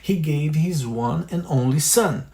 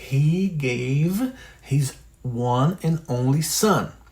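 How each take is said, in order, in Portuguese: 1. A frase é dita em velocidade normal. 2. A frase é dita muito devagar. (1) "Depois a velocidade normal" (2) "bem devagar"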